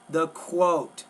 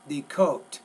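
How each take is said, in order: First: The k sound is followed by a w. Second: The k sound has no w after it. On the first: The speaker calls it right. "don't forget the W with the Q" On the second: The speaker calls it wrong. "Sounds like you're saying the coat"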